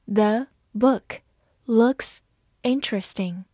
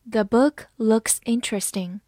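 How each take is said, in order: First: Slow reading. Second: Said in the usual way. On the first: Shown as a demonstration. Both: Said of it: "好，慢慢来读。".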